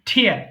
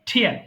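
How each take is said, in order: The two takes are said the same way.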